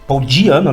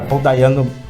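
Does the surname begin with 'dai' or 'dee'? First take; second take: dee; dai. First: The surname begins with the sound 'dee'. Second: The surname begins with the sound 'dai'. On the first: The speaker calls it right. "É Diano" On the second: The speaker calls it wrong. "sempre falo Dayano"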